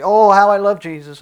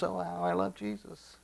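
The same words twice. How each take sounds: First: Loud, high, gushing proclamation; mock devotion. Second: High, soft, gushing echo; mock devotion. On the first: Preacher imitating people who only say they love Jesus, loudly gushing. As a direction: imitate a showy believer, belting it out high. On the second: Preacher imitating people who only say they love Jesus, softly gushing. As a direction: imitate a showy believer, high and hushed. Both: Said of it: "there are many people that say".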